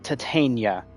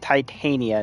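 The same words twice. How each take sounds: First: The name does not begin like 'Titan'. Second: The name begins with the sound of 'Titan'. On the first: The speaker calls it wrong. "not Titania" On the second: The speaker calls it right. "like the metal, ... Like Titan"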